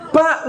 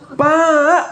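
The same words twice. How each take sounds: First: The call is short and curt. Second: The call is long and drawn out.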